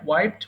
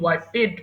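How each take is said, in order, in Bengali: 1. শেষের অংশটা শুধু একটা ধ্বনি, আলাদা দল নেই। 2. শেষের 'ed' আলাদা একটা দল। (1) "সো ওয়াইপ, ওয়াইপড" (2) "ওয়াইপেড বলা যাবে না"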